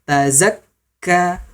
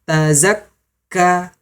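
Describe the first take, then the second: The two takes are said the same way.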